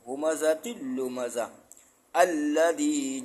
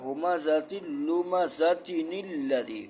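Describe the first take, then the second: First: The reading stops after lumaza before the next word. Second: The words run together with no stop between them. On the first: "यहीं पे रुकते हैं" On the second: "अगर यहाँ मिला के पढ़ेंगे"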